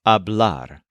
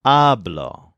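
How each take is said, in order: First: Hablar stressed on the last syllable; ab-LAR, careful demo of hablar. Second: Hablo stressed on the first syllable; AB-lo, isolated demo of hablo; stress on stem. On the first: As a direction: hit the AR of hablar. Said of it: "The infinitive puts the stress on ar". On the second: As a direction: hit AB in hablo, let the end fall. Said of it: "puts the stress on the stem". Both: Shown as a demonstration.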